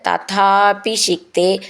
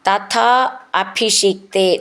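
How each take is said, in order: First: The two words are said joined together. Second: The two words are said separately.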